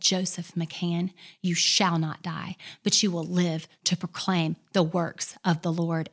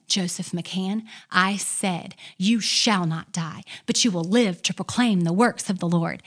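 First: Authoritative decree. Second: Louder authoritative decree. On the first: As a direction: declare it with full authority. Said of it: "with all authority". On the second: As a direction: repeat it with more force and authority. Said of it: "she said it again". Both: Retold or imitated.

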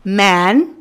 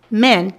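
First: "Man" with the jaw dropped for a broad open "a"; wide-open vowel. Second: "man" narrowed to sound like "men"; tight front vowel. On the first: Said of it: "essa abertura de man é maior". ("Man" com a vogal bem aberta) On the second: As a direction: squeeze the vowel of "man" toward "e". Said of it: "Man é apertada na frente". ("man" com vogal apertada, como "men") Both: Shown as a demonstration.

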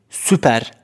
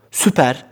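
First: Said in the usual way. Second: Whispered under the breath; whispering. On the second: Real, not acted. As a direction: breathe the word süper. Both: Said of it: "whispered retake".

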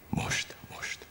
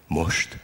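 First: Fojtott, zöngétlen suttogás; súgd el visszafojtott lélegzettel; feszült suttogás. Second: Said in the usual way. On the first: A narrator's reading. Feszült várakozás a felugrás előtt. (suttogva, feszülten)

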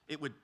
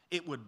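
No difference in how they are said.

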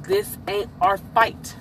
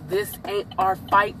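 First: Slow, deliberate "this ain't our fight"; slow emphatic restatement. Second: Said in the usual way. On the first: Real, not acted. Telling y'all to stay out, slow and emphatic on "this ain't our fight". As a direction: spell out "this ain't our fight" slowly, word by word.

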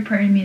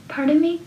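First: Said in the usual way. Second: "Pardon me?" pitched high with a rising mock-polite lilt; mocking imitation. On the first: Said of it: "is more better than that". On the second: Mocking the marching band girl, high imitation. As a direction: mimic the bandmate's prissy "Pardon me?" up high. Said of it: "she'd go".

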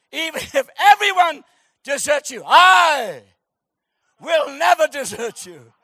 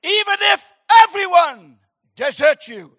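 First: Loud, high, hammed-up declaration; Shakespearean vow. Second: Loud, high theatrical vow; Shakespearean Peter. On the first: Peter swearing to Jesus in theatrical grandeur. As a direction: overact the loyal oath. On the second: Acted. Peter vowing loyalty to Jesus, hammed-up Shakespearean. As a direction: declaim it like a Shakespeare hero. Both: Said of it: "a spirit of Shakespeare came on him".

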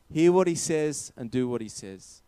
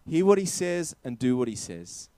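No difference in how they are said.

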